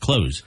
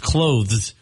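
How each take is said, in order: First: It is said with no th sound. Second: It is said with a soft th sound. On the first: The speaker calls it wrong. "A lot of people just say close, like uh, what you do with the door" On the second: The speaker calls it right. "But it's clothes"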